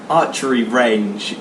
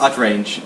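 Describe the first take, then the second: First: The phrase is said at a normal pace. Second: The phrase is said very fast and squashed.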